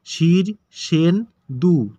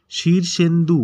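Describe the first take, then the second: First: Shirshendu slow, three syllables set apart; broken into syllables. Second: Said in the usual way. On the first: Shown as a demonstration. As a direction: pause between each syllable of Shirshendu. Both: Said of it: "এটাকে ভেঙে উচ্চারণ".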